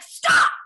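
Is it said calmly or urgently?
urgently. It is said urgently, with fiery force.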